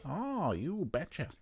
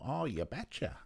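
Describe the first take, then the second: First: Slow, higher Midwest "Oh, you betcha"; Midwest accent. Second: Put-on light Midwest accent on "oh, you betcha"; a hint of Midwest in "oh, you betcha". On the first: Retold or imitated. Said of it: "I like a bit of the Midwest". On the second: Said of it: "a Midwest accent".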